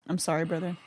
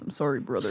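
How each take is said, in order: First: It is said in the speaker's natural voice. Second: It is said in a put-on wrestler voice.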